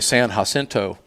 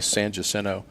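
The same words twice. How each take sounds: First: It is said in a Spanish-style way. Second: It is said in the local Texan way. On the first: The speaker is not from here. "they'll try to be correct" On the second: The speaker is a local. "Texans will say"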